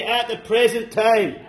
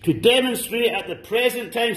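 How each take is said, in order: First: Slow, stressed "present time" with a falling finish. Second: Said in the usual way. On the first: Shown as a demonstration. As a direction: lean on "present" and drag the phrase out.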